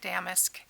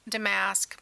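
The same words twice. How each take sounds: First: The word starts with a sound like damn. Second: The word does not sound like damn. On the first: "it sounds more like cussing if you want to say it correctly" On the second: "some people say damask"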